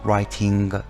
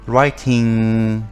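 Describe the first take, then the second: First: The ending has a hard g sound. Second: The ending has no hard g sound. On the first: The speaker calls it wrong. "ما نمیگوییم walking writing" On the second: The speaker calls it right. "ing هستش صدای گ نخواهد داشت"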